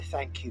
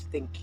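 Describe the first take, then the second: First: The first vowel is the open 'a' of thank. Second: The first vowel is raised to sound like think.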